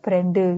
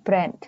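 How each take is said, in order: First: An extra vowel follows the final d. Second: It is one syllable ending in d. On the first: This is how it is said in Korean. "di Korea masih sering kita mereka ngomongnya brande" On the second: This is how it is said in English. "brand ini satu suku kata"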